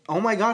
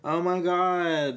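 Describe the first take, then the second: First: It is said in an excited, enthusiastic way. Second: It is said in a flat, unenthusiastic way.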